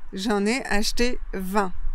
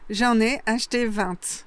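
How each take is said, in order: First: Vingt ends on the nasal vowel, no t. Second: Vingt ends with a clearly sounded t. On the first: This is the most common way. "on va dire que c'est la plus fréquente" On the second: This is a regional way. "dans certaines régions, on dit vingt"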